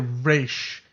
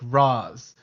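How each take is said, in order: First: The name has a long A vowel sound. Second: The name has a short A vowel sound. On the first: "the long A Raish" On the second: "in my native language Urdu, like Raz is like is is, is like another word for secret"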